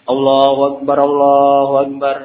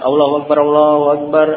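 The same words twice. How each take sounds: First: The phrase is said slowly, with long vowels. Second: The phrase is said quickly, without lengthening. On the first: It calls people who are still away from the mosque. "agak pelan-pelan" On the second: It tells people already present that prayer starts. "pengucapannya agak cepat"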